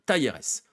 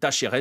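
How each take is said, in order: First: The name is said without the Argentine pronunciation. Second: The name is said with the Argentine pronunciation.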